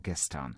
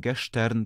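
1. Środkowe dźwięki wymawia się jako zwykłe 'st'. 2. Środkowe dźwięki wymawia się jako 'sht'. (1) "tylko gestern" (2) "Nie mówimy gestern"

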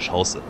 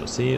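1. Die Betonung liegt auf der ersten Silbe. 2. Die Betonung liegt auf der letzten Silbe. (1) "das heißt ja Schausse. Weil wir sind ja in Deutschland" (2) "Das heißt ja nicht Chaussee"

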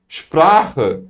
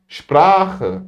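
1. Kelime bir sh sesiyle başlıyor. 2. Kelime bir sh sesiyle başlıyor.

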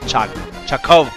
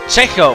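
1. Die erste Silbe klingt wie 'char'. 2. Die erste Silbe klingt nicht wie 'char'.

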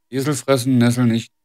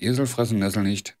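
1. Die Stimme hat starkes Noise Gate und starke Kompression. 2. Die Stimme hat moderates Noise Gate und moderate Kompression. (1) "Noise Gate. 40%, alles auch auf volle Pulle" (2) "Machen wir den Kompressor auf 30, ... Noise machen wir auf 25"

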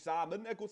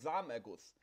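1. Jede Silbe, auch die mittlere e, wird ausgesprochen. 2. Die mittlere e-Silbe wird verschluckt und fällt weg. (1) "Er sagt nicht Samenerguss" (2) "er schluckt halt die E-Silbe bei Samenerguss"

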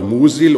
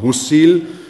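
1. Das s wird weich und stimmhaft gesprochen. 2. Das s wird scharf und stimmlos gesprochen.

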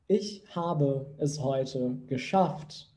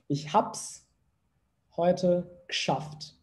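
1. Cada palavra é pronunciada de forma clara e completa. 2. Alguns sons são omitidos e as palavras se juntam. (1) "tá muito claro ali cada uma das palavras" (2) "acaba comendo ali algumas letras"

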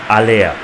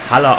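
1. Der Name beginnt mit einem Vokallaut. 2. Der Name beginnt mit einem h-Laut. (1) "sondern Aller" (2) "wird nicht Haller ausgesprochen"

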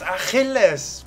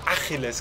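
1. Die Betonung liegt auf der zweiten Silbe. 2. Die Betonung liegt auf der ersten Silbe. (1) "Es heißt Achilles, sag's mal nach" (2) "also das falsch betont"

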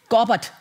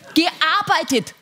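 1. Das Wort wird verkürzt, zwei Silben kürzer. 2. Das Wort wird vollständig gesprochen, mit allen Silben.

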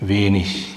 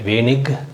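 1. இந்தச் சொல் மென்மையான ich ஒலியில் முடிகிறது. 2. இந்தச் சொல் கடினமான k ஒலியில் முடிகிறது. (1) "ஏறக்குறைய இஹ்னு இஷ் அது மாதிரி அது மாதிரி உச்சரிக்கிறாங்க" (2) "ரெண்டுமே உச்சரிக்கலாம் தவறு கிடையாது"

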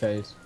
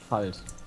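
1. Der Vokal klingt wie 'e'. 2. Der Vokal klingt wie 'a'. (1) "Nicht Feld" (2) "das heißt Falt"

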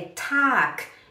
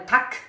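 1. A vogal é longa. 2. A vogal é curta. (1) "é tac, é um alongo" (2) "não é tac"

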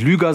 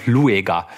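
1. Der Name wird mit einem einzelnen ü gesprochen. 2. Der Name wird mit getrenntem u und e gesprochen. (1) "der heißt offensichtlich nicht Lüger" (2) "sondern Lueger"

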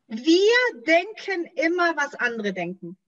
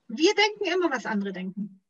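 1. Der Satz wird langsamer gesprochen. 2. Der Satz wird normal, etwas schneller gesprochen.

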